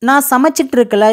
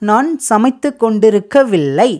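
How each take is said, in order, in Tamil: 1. இது பேச்சு வழக்கு, சுருக்கமானது. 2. இது எழுத்து வழக்கு, முழுமையானது. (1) "இது நம்ம பேச்சு வழக்கில் பேசிட்டோம்" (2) "கரெக்டாக பேசணும் அப்படின்னா"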